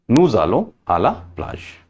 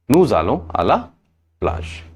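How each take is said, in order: Both takes have the same delivery.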